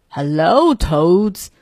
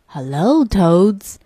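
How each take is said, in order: First: Lightly voiced turtle menace; a hint of a snappish greeting; mildly snapping turtle voice. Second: Lightly voiced snake greeting; a hint of a menacing hiss; mild snake voice, drawing out the greeting. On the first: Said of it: "snapped the snapper". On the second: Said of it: "hissed the snake". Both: A narrator's reading.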